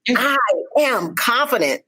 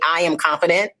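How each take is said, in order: First: Every word is said with strong emphasis. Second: It is said flatly with no emphasis. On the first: The speaker sounds confident and means it. The speaker calls it right. "even if you put it on all through three" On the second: The speaker does not sound confident. The speaker calls it wrong. "if you just say it like that, does that does not sound like you're confident"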